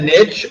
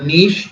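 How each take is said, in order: First: The word is said with an English-style pronunciation. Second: The word is said with a French-style pronunciation.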